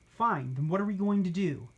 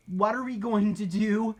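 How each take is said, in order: First: Grudging, annoyed huff; huffy. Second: Higher, rushed worried question; panicked. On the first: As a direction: give in with a huff. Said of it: "Gertrude huffed". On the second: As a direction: ask in a panic. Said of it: "Pancake panicked". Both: Acted.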